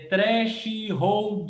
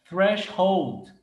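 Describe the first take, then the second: First: The word is pronounced in a learner-like way. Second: The word is pronounced in a native-like way. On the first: The speaker calls it wrong. "A pessoa vai falar é" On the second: The speaker calls it right. "Tem muita gente que não vai conseguir falar isso aqui"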